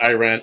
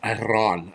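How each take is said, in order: First: Iran is pronounced the American way. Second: Iran is pronounced the native way. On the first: The speaker calls it wrong. "not Iran" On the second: The speaker calls it right. "it's Iran"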